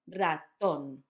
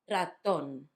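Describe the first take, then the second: Both takes have the same delivery.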